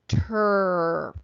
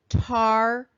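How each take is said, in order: First: The vowel sounds like 'er' as in her. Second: The vowel sounds like 'ar' as in car. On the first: The syllable is treated as unaccented. The speaker calls it right. "the second syllable is unaccented, so it's going to go er" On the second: The syllable is treated as accented. The speaker calls it wrong. "The combination in an accented syllable will say ar"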